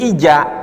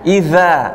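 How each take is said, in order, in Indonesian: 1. Konsonan di tengah adalah bunyi j. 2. Konsonan di tengah adalah bunyi th yang lembut. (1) "Bisa berubah menjadi huruf jim" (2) "Ujung lidah dengan gigi seri"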